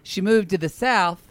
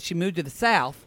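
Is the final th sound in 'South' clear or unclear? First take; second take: clear; unclear. First: The word ends with a clearer th sound. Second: The word ends without a clear th sound. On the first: The speaker calls it right. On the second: The speaker calls it wrong. "Point your tongue closer"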